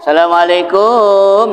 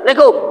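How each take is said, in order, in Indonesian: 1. Assalamualaikum diucapkan pelan dengan lagu panjang. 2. Assalamualaikum diucapkan keras dan cepat. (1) "yang kedua Melayu-Melayu" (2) "Ada yang salam ngegas"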